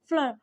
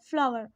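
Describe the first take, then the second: First: Flour is said the way she calls British. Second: Flour is said the way she calls American.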